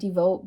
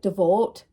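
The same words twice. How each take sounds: First: It is said in her plain, normal accent. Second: It is said in an odd, maybe Scottish accent.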